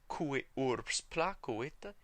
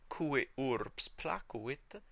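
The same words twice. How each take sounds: No difference in how they are said.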